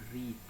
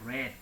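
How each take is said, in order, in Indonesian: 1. Diucapkan sebagai bentuk dasar present. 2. Diucapkan sebagai bentuk past participle. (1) "bukan read. ... read itu kata kerja bentuk pertama" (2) "Kalau ini bentuk ketiga berarti kita bacanya read"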